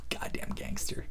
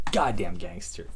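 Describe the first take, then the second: First: Whispered, almost no voice; hushed awe. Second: Low, soft and quiet; quiet low admiration; low mutter. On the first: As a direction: breathe it like a secret. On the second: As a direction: murmur it under the breath. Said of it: "repeat after whisper". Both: Real, not acted.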